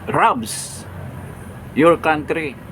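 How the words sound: The first word begins with an R sound. The country is robbed. The speaker calls it wrong.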